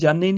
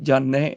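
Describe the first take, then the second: First: The word ends in a plain 'e' sound. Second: The word ends in a broad 'ai' sound. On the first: The speaker calls it wrong. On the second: The speaker calls it right.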